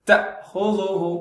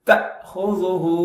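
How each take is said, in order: Both takes have the same delivery.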